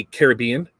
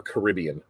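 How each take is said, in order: First: Caribbean said as care-uh-BEE-un; stress on third syllable. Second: Caribbean said as kuh-RIB-ee-un; stress on second syllable. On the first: Host asks listeners which way is right, Caribbean stressed care-uh-BEE-un. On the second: Host offers listeners the other way, Caribbean stressed kuh-RIB-ee-un. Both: Shown as a demonstration. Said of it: "do you say Caribbean or Caribbean".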